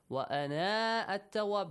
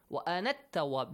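First: The final vowel of ana is long. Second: The final vowel of ana is short. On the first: The speaker calls it wrong. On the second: The speaker calls it right. "There is no long vowel. You have to delete the long vowel"

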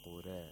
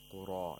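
First: The final vowel leans toward e, with thin r. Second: The final vowel is a fully open a. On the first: The speaker calls it right. "you say qura" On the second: The speaker calls it wrong. "You don't say qura"

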